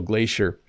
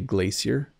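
First: It uses the North American pronunciation. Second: It uses the British pronunciation. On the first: "I'm using the North American pronunciation" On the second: "if you're in Britain, you would say glacier"

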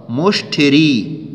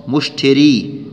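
No difference in how they are said.

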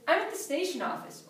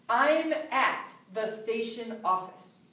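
First: The words run together in relaxed speech. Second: Each word is spoken separately and clearly. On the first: "I don't speak that clearly" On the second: "I speak very clearly"

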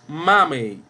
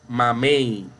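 First: The stress is on the first syllable. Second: The stress is on the last syllable. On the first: The speaker calls it wrong. "No decimos mamey" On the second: The speaker calls it right. "La más fuerte suena en el último lugar"

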